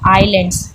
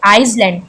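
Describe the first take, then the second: First: No s sound is heard before the l. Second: An s sound is heard before the l. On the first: The speaker calls it right. "एस क्या है, silent है यहाँ पे, हम इसको आइलैंड्स बोलते हैं" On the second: The speaker calls it wrong. "कुछ कुछ बोलते हैं ना आइसलैंड, मतलब एस को भी प्रोनाउंस करते हैं"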